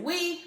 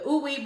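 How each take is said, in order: First: The name is said as one syllable, 'wee'. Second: The name is said as two syllables, 'oo-ee'. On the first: "you might just pronounce it wee" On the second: "I like to call it Ooey"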